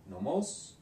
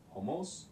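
First: Nomos said with a clear N at the start and a rising tune; standard nomos. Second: Homos said with an H in place of the N and a rising tune; colloquial homos. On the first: Teacher giving the standard form first, Nomos with N. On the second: Teacher showing the casual variant, homos with H. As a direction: swap the N of nomos for an H: homos. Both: Shown as a demonstration. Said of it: "say ho instead of no".

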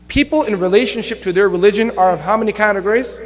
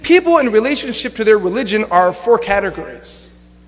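First: Rising tune on "how many categories"; quiz question. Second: Said in the usual way. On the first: Real, not acted. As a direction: quiz the audience, lifting "categories" at the end.

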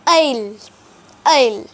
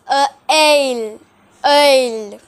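First: Ale said like the English word ale, "ayl"; English-style ale. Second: Ale said as French œil, rounded vowel. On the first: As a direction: anglicize ale on purpose. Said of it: "if I pronounced it in the English way". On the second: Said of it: "But in French". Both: Shown as a demonstration.

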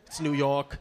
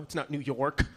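First: "York" with the R dropped, like "Yawk"; New York "York", R-less long vowel; New York accent, no R. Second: "York" said with its R fully sounded; "York" with a clear final r-k; standard R in York. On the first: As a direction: skip the R in "York". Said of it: "Skip the R". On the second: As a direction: pronounce the R in "York". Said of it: "We don't pronounce the R's". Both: Shown as a demonstration.

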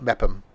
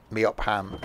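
First: Mepham as two syllables, MEP-um; guessed pronunciation. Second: Meopham softly sounded out as MEE-op-ham; spelling pronunciation. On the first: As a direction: say Mepham with a reduced -um ending. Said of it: "I'm guessing it's pronounced Mepham". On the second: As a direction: give Meopham a full HAM, lower and softer. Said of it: "isn't gonna be pronounced Meopham". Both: Shown as a demonstration.

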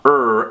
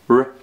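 First: R drawn out as "err"; wrong R sound. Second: R as a pure "rrr"; no vowel before or after R; correct R sound. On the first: Teacher rejecting giraffe's second try, wrong R sound. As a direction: put a long vowel before R, "errr". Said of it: "it's not R either". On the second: Teacher modelling after giraffe's second try, correct R sound. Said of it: "it's not R either. It's R". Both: Shown as a demonstration.

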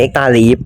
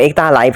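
First: "Life" pronounced as "leaf"; "Life" rhyming with beef; corrected reading. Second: "Life" said like English "life", long i; "Life" with an "ai" vowel; old misreading. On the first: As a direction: say "Life" with a long ee vowel. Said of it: "มันอ่านว่า Leaf". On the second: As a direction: say "Life" to rhyme with knife. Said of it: "มันไม่ได้อ่านว่า Life เว้ย". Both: Shown as a demonstration.

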